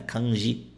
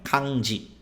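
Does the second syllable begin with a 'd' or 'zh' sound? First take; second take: zh; d. First: The second syllable starts with a soft 'zh' sound. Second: The second syllable starts with a 'd' sound. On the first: The speaker calls it wrong. "as pessoas que não estudam japonês falam kanji" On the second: The speaker calls it right. "O som dela é di"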